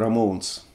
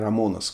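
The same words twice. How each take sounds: First: The name is said in its original English form. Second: The name is said in a Russified local form. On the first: This is how the band's own name sounds. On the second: This is how people locally say the name.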